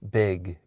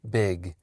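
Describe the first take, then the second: The two takes are said the same way.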